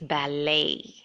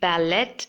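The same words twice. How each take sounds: First: No T sound is heard at the end. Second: A T sound is heard at the end. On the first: The speaker calls it right. "the T is silent" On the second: The speaker calls it wrong. "it shouldn't be pronounced as ballet"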